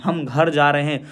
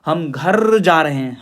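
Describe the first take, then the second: First: Said in the usual way. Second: घर drawn out with a rolled end and pushed; stress on घर. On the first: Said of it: "जोर नहीं देते". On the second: Shown as a demonstration. Teacher showing students what stress is, घर stressed. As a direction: lean hard and long on the word घर. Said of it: "speech में stress यानी जोर देना".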